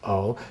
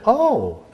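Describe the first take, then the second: First: It sounds deflated and disapproving. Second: It sounds interested and lively.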